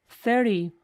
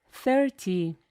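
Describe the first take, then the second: First: Thirty with the T dropped, thirdy; American thirty. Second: Thirty with a clear T; careful thirty. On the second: Teacher demonstrating thirty with a full T. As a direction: say thirty with the T sounded. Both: Shown as a demonstration.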